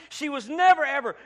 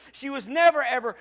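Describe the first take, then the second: No difference in how they are said.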